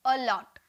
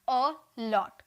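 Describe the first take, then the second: First: Said in the usual way. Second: अ लॉट split after अ; two separate syllables. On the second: Shown as a demonstration. Teacher shows the two sounds in allot, syllables apart. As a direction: say अ, brief gap, then लॉट. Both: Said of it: "दो बार sound निकल रहा है ना".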